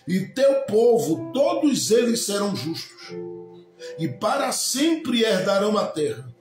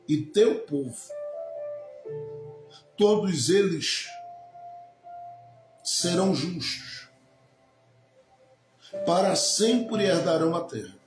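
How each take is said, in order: First: It is read quickly, in one run. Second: It is read slowly, with deliberate pauses.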